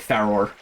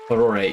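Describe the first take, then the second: First: The final E is silent. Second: The final E is pronounced. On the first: "the more English, like, silent E way" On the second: "I have heard that be the pronunciation"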